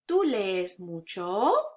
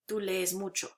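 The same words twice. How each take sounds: First: The pitch rises at the end. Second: The pitch stays flat at the end. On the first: It is a question. "turned into a question by raising the tone" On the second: It is a statement. "which is flat"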